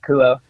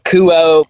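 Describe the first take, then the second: First: The final O vowel is kept short. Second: The final O vowel is drawn out long. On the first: The speaker calls it right. "That's how you say it" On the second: The speaker calls it wrong. "but like with like a longer O"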